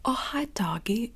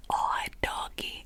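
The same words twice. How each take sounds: First: A lightly higher, slowed "Oh, hi, doggy" in a put-on voice; character voice demo. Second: Said in the usual way. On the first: Shown as a demonstration. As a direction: do Johnny's line as a light character voice, drawn out. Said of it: "talking like this rather than". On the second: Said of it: "rather than".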